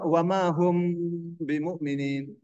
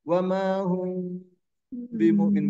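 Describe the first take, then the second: First: The m is pronounced fully and clearly. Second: The m is softened with lips slightly open. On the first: The speaker calls it wrong. "baca saja" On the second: The speaker calls it right. "mengatup dua bibir tapi ada terbuka dikit"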